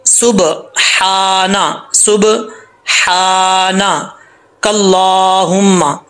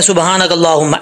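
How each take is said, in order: First: सुबहाना with a clear throat हा and whistling सीन, drawn very slowly; correct slow recitation. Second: सुबहानकल्लाहुम्मा rattled off quickly as people often do; rushed wrong reading. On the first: Teacher shows students the correct recitation, very slow. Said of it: "तो इसको कैसे पढ़ेंगे?". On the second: Teacher mimics students' common mistake, rushed. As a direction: say सुबहानकल्लाहुम्मा fast and careless. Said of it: "ऐसा नहीं पढ़ना". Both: Shown as a demonstration.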